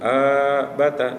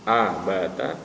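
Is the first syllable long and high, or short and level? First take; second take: long and high; short and level. First: The first vowel is drawn out on a high pitch. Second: The first vowel is short and level. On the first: The speaker calls it wrong. "terbiasa di tarikan awal dengan nada tinggi" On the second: The speaker calls it right. "semestinya dibaca pendek, cukup"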